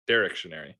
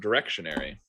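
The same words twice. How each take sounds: First: The stress is on the first syllable. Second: The stress is on the second syllable. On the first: "The emphasis is on the first syllable" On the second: "direction just flows better"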